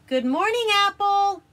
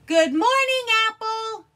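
First: High, loud calling out. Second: Very high, loud scream. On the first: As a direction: call out to wake him. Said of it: "he cried". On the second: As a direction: scream it to wake him. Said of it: "he screamed". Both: Acted.

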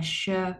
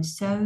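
First: "sơ" starting with a strong "sh"; heavy S sound. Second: "sơ" starting with a plain light s, as in "so"; light S sound. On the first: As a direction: say "sơ" as "shuh", pushing air out. (sơ âm sờ nặng, cong lưỡi) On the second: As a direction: say "sơ" with a small s, tongue uncurled. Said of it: "s với o". (sơ âm sờ nhẹ) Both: Shown as a demonstration.

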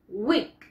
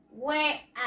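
First: Weak rhymes with seek, long clear ee; weak said as wik. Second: Said in the usual way. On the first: Shown as a demonstration. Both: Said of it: "The pronunciation is".

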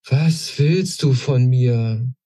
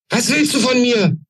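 First: Slow, worn-out asking; all fight drained from the question; exhausted. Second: The queen shrieks her question at the intruder; shouting. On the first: Queen asking the old woman again, exhausted. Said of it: "jetzt mit Erschöpfung in der Stimme". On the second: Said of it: "schrie sie die Alte an". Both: A narrator's reading.

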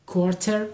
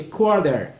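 First: کوارتر with a crisp, hard t; spelled-out pronunciation. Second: کوارتر with the t softened to a quick d; American flapped t in کوارتر; correct pronunciation. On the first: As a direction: sound the t fully in کوارتر. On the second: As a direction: say کوارتر as "kwor-der". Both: Shown as a demonstration. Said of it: "تلفظ صحیحش چیه؟".

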